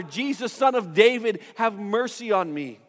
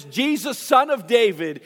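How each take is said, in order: First: Pleading call retold with raised pitch, not volume; mock yell. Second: Higher-pitched, drawn-out call, little added volume; restrained retold shout; mock shout. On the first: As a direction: imitate a beggar crying out insistently. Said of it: "begins to yell even louder". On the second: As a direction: imitate a beggar calling out to someone passing. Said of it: "begins to shout out to him".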